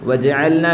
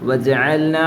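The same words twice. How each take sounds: The two takes are said the same way.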